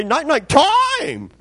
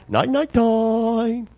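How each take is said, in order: First: High, slow squawk with heavy emphasis on "time"; insistent bird mimicry. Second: Slow, higher bird voice with a long held last word; sleepy bird mimicry. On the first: Uncovered macaw demands his bedtime cover, insistent high bird voice. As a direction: squawk it insistently, stretching the last word. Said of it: "Put the emphasis on it". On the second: Sleepy macaw asks to be covered up, drawn-out bird mimicry. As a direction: draw it out like a talking bird. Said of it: "out of the clear blue, he'd say".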